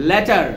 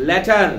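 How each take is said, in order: No difference in how they are said.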